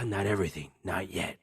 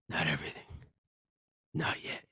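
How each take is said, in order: First: The line is said quickly with little feeling. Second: The line is said slowly with strong feeling. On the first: The speaker calls it wrong. "You said that line too quickly" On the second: The speaker calls it right. "More passion"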